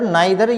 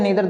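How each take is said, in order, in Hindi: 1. पहला स्वर 'eye' जैसा बोला जाता है। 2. पहला स्वर 'ee' जैसा बोला जाता है। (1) "दोनों तरह से का उच्चारण सही है" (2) "दोनों तरह से का उच्चारण सही है"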